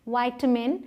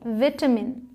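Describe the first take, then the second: First: It is said with an American accent. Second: It is said with a British accent.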